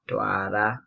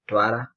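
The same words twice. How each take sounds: First: The R sound is long and emphasized. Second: The R sound is short and said quickly. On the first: "I put an emphasis on the double R" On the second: "if you remove one and say quickly"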